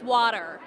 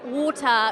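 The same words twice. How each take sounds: First: It is said in an American accent. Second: It is said in a British accent. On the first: "Americans cannot understand" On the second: "when they ask for water"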